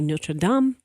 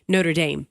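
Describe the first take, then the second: First: It uses the newer pronunciation others adopted. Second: It uses the local football-style pronunciation. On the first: This is how most people have started saying it. "I heard everybody start to say Notre Dame" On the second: This is how the name looks when read. "that's how I see it because I covered football for so long"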